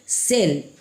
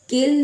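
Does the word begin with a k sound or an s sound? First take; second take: s; k. First: The word begins with an s sound. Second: The word begins with a k sound. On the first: The speaker calls it right. "क्या बोलेंगे? सेल" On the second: The speaker calls it wrong. "केल नहीं बोलेंगे"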